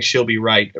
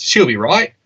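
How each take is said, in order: First: Said in the usual way. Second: Put-on higher-pitched Australian accent. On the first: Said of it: "I always thought they were saying". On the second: Explaining what Aussies just say, Australian accent. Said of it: "you nailed that accent".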